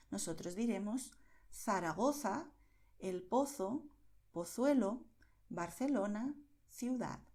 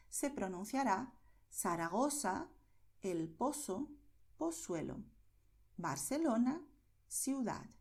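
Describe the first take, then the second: First: Zaragoza, Pozo, Pozuelo, Barcelona, ciudad con z y c como la th inglesa; ceceo de Madrid. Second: Zaragoza, Pozo, Pozuelo, Barcelona, ciudad con z y c como s; seseo latinoamericano. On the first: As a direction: pon la lengua entre los dientes en z y c, como en Madrid. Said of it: "el mismo que tienes en inglés cuando dices thing". (z y c como th de thing, acento de Madrid) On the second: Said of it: "Así es como se pronuncia en toda América". (z y c dichas como s, estilo América) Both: Shown as a demonstration.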